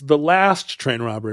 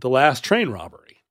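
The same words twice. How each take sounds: First: The stress is on the word last. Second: The stress is on the word train.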